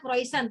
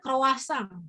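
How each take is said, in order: First: It is read letter by letter as spelled. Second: It is said with the French pronunciation. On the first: "Ini tulisannya croissant, tapi kalau orang Perancis bacanya bukan gitu ya" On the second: "Bacanya croissant"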